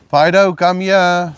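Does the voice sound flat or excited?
flat. It is said flatly, without excitement.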